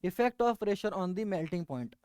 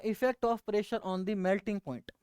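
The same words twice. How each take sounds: First: Very slow, word by word for note-taking; slow dictation. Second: Unhurried, announcing the topic; slow announcing. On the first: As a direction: dictate "effect of pressure on the melting point" slowly so students can write. (बहुत धीमे, लिखवाते हुए) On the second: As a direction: lay out the topic at an easy pace. (धीमे से विषय बताना) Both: Shown as a demonstration. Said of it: "हमें पढ़ना क्या है वो दोबारा देखो".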